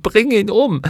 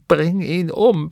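First: Much higher, louder furious scream; the rage peaks on the repeat. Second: High, slow first cry of fury; screaming in rage. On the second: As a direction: scream for his death, still gathering force. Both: A narrator's reading. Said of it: "packte seine Arme und schrie".

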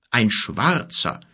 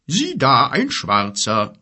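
First: Slow lightly voiced giant; a hint of a growling giant; rumbling giant. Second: Slow, half to himself; lightly voiced friendly giant; musing giant. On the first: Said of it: "grollte er". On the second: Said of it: "grollte er in einem Tonfall, als spreche er mit einem guten Freund". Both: A narrator's reading.

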